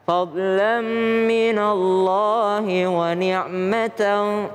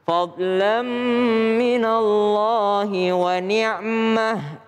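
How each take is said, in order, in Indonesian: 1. Kata terakhir berakhir dengan t dan -an. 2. Kata terakhir berakhir dengan h yang berembus. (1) "kalau bersambung ini dia adalah huruf ta" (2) "kalau berhenti ... maka dia berubah menjadi ha"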